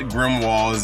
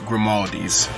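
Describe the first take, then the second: First: The name is said as Grimwald's. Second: The name is said as Grimaldi's. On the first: The speaker calls it wrong. "It's not Grimwald's" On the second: The speaker calls it right. "it's Grimaldi's"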